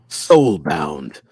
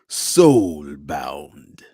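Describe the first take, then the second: First: It is said in a normal speaking voice. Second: It is said in a Mortal Kombat announcer voice.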